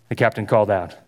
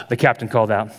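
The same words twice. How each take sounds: Both takes have the same delivery.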